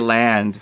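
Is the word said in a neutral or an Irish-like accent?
neutral. It is said in a neutral accent.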